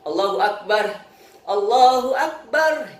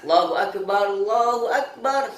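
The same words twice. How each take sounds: First: A breath is taken between the two phrases. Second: Both phrases run together in a single breath. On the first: The speaker calls it wrong. "Contoh dua nafas gimana? ... Itu dua nafas" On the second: The speaker calls it right. "Satu nafas. ... satu nafas"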